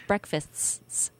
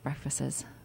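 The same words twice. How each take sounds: First: The final ts sound is clearly pronounced. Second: The final ts sound is blurred or dropped. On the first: The speaker calls it right. "like with the little ts" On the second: The speaker calls it wrong. "It's not breakfasts"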